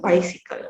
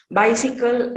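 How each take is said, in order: First: "bicycle" said as "wicycle". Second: Said in the usual way. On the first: Shown as a demonstration. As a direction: start "bicycle" on w instead of b. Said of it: "by the w sound". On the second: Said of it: "b sound is replaced with".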